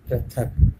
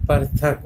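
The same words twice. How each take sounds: First: Said in the usual way. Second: पृथक said par-thak; misspelt reading. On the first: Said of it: "लेकिन होता क्या है". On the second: Shown as a demonstration. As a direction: move the r after the vowel in पृथक. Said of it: "ये क्या लिखा है". (पृथक को पर-थक पढ़ें)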